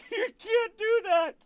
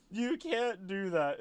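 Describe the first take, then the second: First: Very high, slow, squeaky mock protest; imitating a whiny voice. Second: Said in the usual way. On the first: Mocking a player's protest in a squeaky high voice. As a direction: whine it up high like a cartoon. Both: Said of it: "You're just like".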